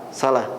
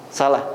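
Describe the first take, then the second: No difference in how they are said.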